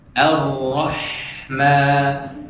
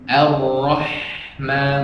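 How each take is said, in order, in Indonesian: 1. Bunyi 'h' mengalir agak panjang. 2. Bunyi 'h' terputus tiba-tiba. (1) "dia mengalirnya agak panjang" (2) "bukan ini. Ar-Rahman kayak diputus ya"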